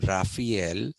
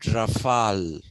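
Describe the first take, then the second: First: The name is said the American way. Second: The name is said the French way. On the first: "Americans, for some strange reason, have converted that pronunciation into Raphael. It is not Raphael" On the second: "the French have made it Rafale, which is also not the correct pronunciation"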